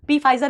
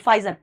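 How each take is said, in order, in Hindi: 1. F से पहले P की आवाज़ सुनाई देती है। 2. शब्द सीधे F से शुरू होता है। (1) "पी फाइजर नहीं बोलते" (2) "पी साइलेंट है"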